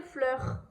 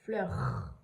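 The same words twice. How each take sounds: First: Said in the usual way. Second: "Fleur" much lower, ending on a held R; long final R. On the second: Shown as a demonstration. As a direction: draw out the R closing "Fleur". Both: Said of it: "J'entends bien le R".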